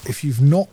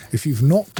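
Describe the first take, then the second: No difference in how they are said.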